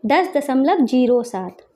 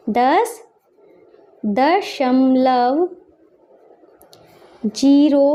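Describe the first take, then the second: First: Said in the usual way. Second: Very stretched words with long gaps; slow dictation. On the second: Shown as a demonstration. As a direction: spell it out word by word. Dictating while writing in words.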